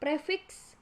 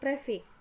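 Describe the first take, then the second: First: The word ends with a 'ks' cluster. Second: The word ends with a single 'k'. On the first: "gugus konsonan K S menjadi K" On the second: "gugus konsonan K S menjadi K"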